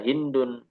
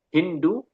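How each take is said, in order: First: The name ends with an added n sound. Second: The name ends on a vowel without n. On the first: The name is treated as declinable, which is preferred. "boleh ditanwin sehingga dibaca hindun" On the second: The name is treated as indeclinable.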